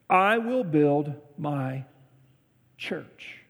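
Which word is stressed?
church. The stress is on "church".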